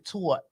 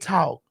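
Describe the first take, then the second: First: The word is said with a New York accent. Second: The word is said with a Southern accent. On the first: "like the New Yorkers say talk" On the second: "we say talk"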